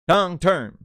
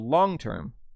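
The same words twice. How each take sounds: First: Both words carry a strong stress. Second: Only one of the two words is stressed. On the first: The speaker calls it right. "it sounds better when you go long term. Long term. Two stresses" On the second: The speaker calls it wrong. "you don't go long term"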